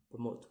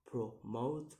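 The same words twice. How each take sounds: First: Said in the usual way. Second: "promote" in two beats, the second rising; second-syllable stress. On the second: Shown as a demonstration. Teacher showing stress, "promote" split with a rising end. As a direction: split "promote" and draw the last syllable upward. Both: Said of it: "put on the second".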